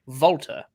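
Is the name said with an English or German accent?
German. The name is said with a German accent. The speaker calls it right. "as a native German speaker, he pronounced it correctly"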